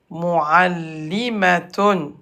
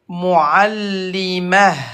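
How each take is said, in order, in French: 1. Le mot se termine par une finale complète 'tun'. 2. Le mot se termine par un son 'h' léger.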